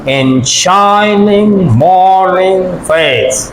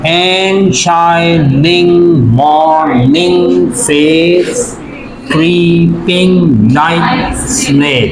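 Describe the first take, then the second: First: "and shining morning face" slowly, leaning long on SHI, MOR and FACE; unstressed-stressed pattern. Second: "And shining morning face creeping like snail" chanted in even, separate syllables. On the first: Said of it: "unstressed और stressed syllable का". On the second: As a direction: count out each syllable slowly: "And shi-ning mor-ning face cree-ping like snail". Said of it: "syllables count कर रहे हैं". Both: Shown as a demonstration.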